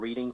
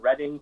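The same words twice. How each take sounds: First: The name is said the outsider way. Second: The name is said the local way. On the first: This is how people from elsewhere say it. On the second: This is how people from the area say it.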